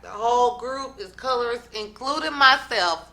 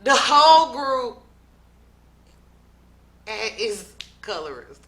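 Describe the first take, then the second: First: Said in the usual way. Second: Sudden burst on whole, then drops; loud retold quote. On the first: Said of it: "she's like". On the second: Recapping O G's claim, loud then falling off. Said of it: "O G now says".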